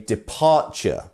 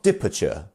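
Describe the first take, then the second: First: The stress is on the second syllable. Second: The stress is on the first syllable. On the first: The speaker calls it right. "it's the second syllable that is our stressed syllable. So we say departure" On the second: The speaker calls it wrong. "not departure"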